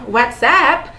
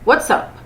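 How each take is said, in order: First: It is said open and drawn out. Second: It is said short and tight. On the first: The name of the messaging app. The speaker calls it wrong. "Não é o WhatsApp, o nosso app" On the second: An informal greeting between close friends. The speaker calls it right. "Com essa pronúncia bem fechadinha"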